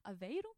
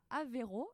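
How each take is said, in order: First: It is said with a Portuguese accent. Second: It is said with a French accent.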